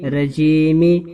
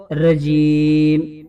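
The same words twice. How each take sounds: First: رجیمی said with a final ی sound; wrong vowel ending. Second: رجیم ended cleanly on the م; stop on the last letter. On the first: Teacher showing the wrong reading رجیمی. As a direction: end رجیمی on a long mi. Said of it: "رجیمی نہیں پڑھیں گے". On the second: Teacher showing the correct stop on رجیم. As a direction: cut رجیم off at the final meem. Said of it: "اس کو آیت لگا کر رجیم پڑھیں گے". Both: Shown as a demonstration.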